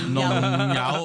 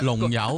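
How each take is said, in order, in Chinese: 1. 这个词以带鼻音的 N 音开头。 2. 这个词以 L 音开头。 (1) "有呢个有鼻音嘅，N 音嚟嘅" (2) "啲人成日话农友"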